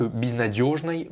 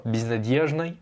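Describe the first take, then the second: First: Безнадёжной with a rounded "dyo"; modern pronunciation. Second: Безнадёжной with "dye" in place of "dyo"; old-version pronunciation. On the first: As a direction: say безнадёжной as "biz-na-DYOZH-nay". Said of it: "c'est la version actuelle". (безнадёжной à l'actuelle, avec « dio ») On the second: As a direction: say безнадёжной as "biz-na-DYEZH-nay". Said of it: "c'est la version ancienne". (безнадёжной à l'ancienne, avec « dié ») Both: Shown as a demonstration.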